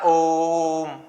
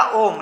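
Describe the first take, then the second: First: ओम with a long, held "o"; drawn-out pluta. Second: Said in the usual way. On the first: Shown as a demonstration. Teacher showing students how pluta lengthens Om, drawn-out pluta. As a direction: stretch ओम out steadily before closing on the m. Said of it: "खींच कर बोलने के लिए". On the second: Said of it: "ठीक है, मैंने बोला ओम".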